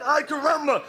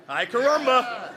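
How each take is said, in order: First: Ay caramba in a light mock Bart cartoon voice, a bit higher; cartoon catchphrase. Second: Ay caramba slowed, breaking into a laugh; can't keep a straight face on Ay caramba; laughing through it. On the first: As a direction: toss off the Simpsons catchphrase, hammed-up. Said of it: "You wanna hear a Simpsons line?". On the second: Shown as a demonstration. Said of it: "Ruined it, see?".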